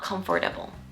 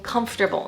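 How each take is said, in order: First: The word is said with four syllables. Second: The word is said with three syllables. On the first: The speaker calls it wrong. "not comfortable" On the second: The speaker calls it right. "There are three syllables"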